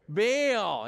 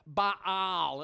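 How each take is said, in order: First: The name is said as one syllable. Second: The name is said as two syllables. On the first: The speaker calls it wrong. "We always say he was Baal. ... we're pronouncing that wrong" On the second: The speaker calls it right. "It was really two syllables"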